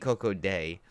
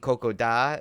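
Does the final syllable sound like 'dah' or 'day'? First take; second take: day; dah. First: The last syllable ends in an 'ay' vowel. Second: The last syllable ends in an 'ah' vowel. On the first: The speaker calls it right. "is the way you're supposed to pronounce it" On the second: The speaker calls it wrong. "I thought it was Coco D"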